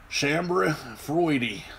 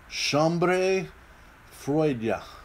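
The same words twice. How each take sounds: First: It is said with a Southern US accent. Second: It is said with an attempted French accent.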